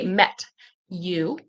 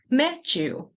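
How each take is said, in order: First: The T and Y are said separately. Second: The T and Y blend into a ch sound. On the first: "I didn't say met you. You can. It's not bad" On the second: "it'll turn into a ch ch ch sound. So I said"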